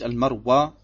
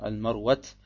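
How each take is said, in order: First: The name ends on a plain open vowel. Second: The name ends with a t sound. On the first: "es ist nicht Al-Marwa, wie es hier im Deutschen heißt" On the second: "nach manchen arabischen Dialekten sagt man Al-Marwat"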